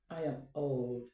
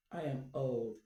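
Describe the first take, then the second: No difference in how they are said.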